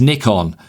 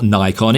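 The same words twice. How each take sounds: First: The name is said the non-American way. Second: The name is said the American way. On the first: The speaker calls it right. "it's Nikon, because Nikon is an abbreviation" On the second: The speaker calls it wrong. "everyone calls it Nikon. It's not Nikon"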